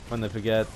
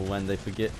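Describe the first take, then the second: No difference in how they are said.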